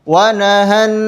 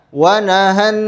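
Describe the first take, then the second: The two takes are said the same way.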